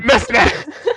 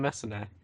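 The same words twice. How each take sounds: First: The name is shouted loudly. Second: The name is said at normal volume. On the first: The speaker calls it wrong. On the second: The speaker calls it right.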